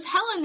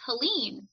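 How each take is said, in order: First: "Helen" stressed on the first syllable; "Helen" pronunciation. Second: "Helene" stressed on a long second syllable; "Helene" pronunciation. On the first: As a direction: say "Helen" as HELL-en. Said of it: "I thought it was Helen". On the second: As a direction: say "Helene" as huh-LEEN. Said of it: "I heard it again". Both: Shown as a demonstration.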